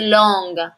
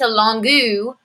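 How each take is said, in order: First: The word ends with no extra vowel sound. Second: An extra vowel is sounded after the final consonant. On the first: The speaker calls it right. "it's just long" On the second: The speaker calls it wrong. "It doesn't turn into longu"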